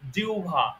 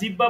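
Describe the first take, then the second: First: The word has the standard careful pronunciation. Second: The word has the common colloquial pronunciation. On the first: The speaker calls it right. "ওটার শুদ্ধ উচ্চারণ হলো জিহ্বা" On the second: The speaker calls it wrong. "অনেকে আমরা জিহ্বা বলে থাকি, জিহ্বা না"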